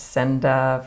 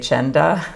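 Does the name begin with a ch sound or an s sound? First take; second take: s sound; ch sound. First: The name begins with an s sound. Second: The name begins with a ch sound.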